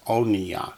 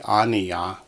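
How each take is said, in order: First: The first vowel is a rounded 'o' sound. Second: The first vowel is an open 'a' sound. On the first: The vowel is written with the shava mark. "With it, it's oniya" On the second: The vowel is written without the shava mark. "Without the shava, it would be aniya"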